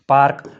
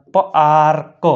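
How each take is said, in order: First: Said in the usual way. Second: પાર્ક split as પ-આર-ક; teacher breaking પાર્ક into sounds; sounded out. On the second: Shown as a demonstration. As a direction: hold the આ of પાર્ક, detach the ક. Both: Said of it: "એનો ઉચ્ચાર આ થાય છે".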